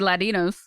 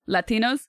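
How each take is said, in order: First: The middle T is softened into a flap. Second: The middle T is pronounced as a clear T. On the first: The speaker calls it wrong. "I wouldn't say Latinos" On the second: The speaker calls it right. "then I would pronounce the T"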